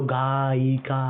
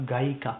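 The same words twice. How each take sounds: First: गायिका said slowly, each vowel held; drawn-out syllables. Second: Said in the usual way. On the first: Shown as a demonstration. Teacher getting the class to repeat, गायिका slowly drawn out. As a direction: stretch गायिका into गा-यि-का. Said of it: "बोलो गायिका". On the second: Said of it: "मैंने क्या बोला?".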